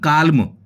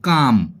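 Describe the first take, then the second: First: The l sound is pronounced. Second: The l sound is silent. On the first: The speaker calls it wrong. "ना कि काल्म" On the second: The speaker calls it right. "इसको हम बोलते हैं काम"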